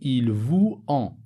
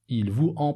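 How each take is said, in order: First: Vous and en are said without a linking z. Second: Vous and en are linked with a z sound. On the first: The speaker calls it wrong. "Je ne peux pas dire il vous en" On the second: The speaker calls it right. "La liaison ici entre vous et en est obligatoire"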